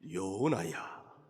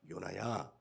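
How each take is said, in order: First: It is said in a solemn put-on spirit voice. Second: It is said in an ordinary speaking voice.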